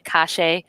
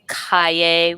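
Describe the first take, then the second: First: The double L sounds like sh. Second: The double L sounds like a y. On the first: "They say calle, uh, because it's a C A L L E" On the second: "they don't say"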